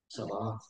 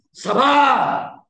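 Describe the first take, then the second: First: Sabar. dropped to a low near-murmur; hushed sabar. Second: Sudden loud shout of Sabar. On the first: Preacher acting a wife holding it in, quietly. Acted outburst of patience. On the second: Preacher acting a wife losing patience, shouting. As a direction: bark Sabar. out high and hard. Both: Acted.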